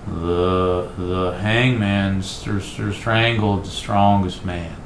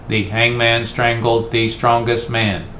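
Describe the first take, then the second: First: It is slurred and stumbling, like a drunk. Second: It is flat and mechanical, like a computer.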